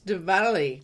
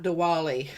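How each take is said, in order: First: The middle consonant sounds like a V. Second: The middle consonant sounds like a W. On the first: The speaker calls it right. "it's Diwali, W is pronounced with a V" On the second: The speaker calls it wrong. "not Diwali"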